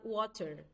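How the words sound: It is said with a British English accent. "No Reino Unido é falado water"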